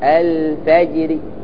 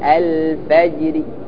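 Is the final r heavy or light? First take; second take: light; light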